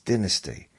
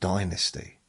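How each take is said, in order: First: The word is said the British way. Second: The word is said the American way. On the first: "half of my family said it's dynasty" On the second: "it was pronounced, I think, different in America"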